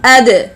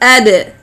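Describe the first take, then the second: The two takes are said the same way.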